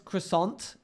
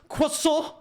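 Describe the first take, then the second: First: The final t is pronounced. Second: The final t is silent. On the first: "if someone says croissant" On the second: "it's pronounced croissant"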